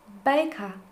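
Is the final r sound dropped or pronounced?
dropped. The final r sound is dropped.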